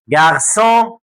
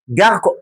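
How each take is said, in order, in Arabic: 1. الحرف الساكن في النص صوت S. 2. الحرف الساكن في النص صوت K. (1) "هي اسمها جارسون" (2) "نطق الكلمه كده من غير السي دي اسمها جاركون"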